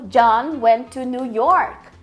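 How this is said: The emphasis falls on New York. He went to New York, not London. "ele enfatizou New York"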